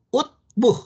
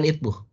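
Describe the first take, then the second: First: The word begins with a 'u' vowel. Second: The word begins with an 'i' vowel. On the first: The speaker calls it right. "karena huruf keduanya dhammah" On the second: The speaker calls it wrong. "Bukan itbuh"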